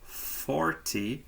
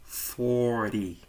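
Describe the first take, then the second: First: The middle T sound is clearly pronounced. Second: The middle T is dropped after the R.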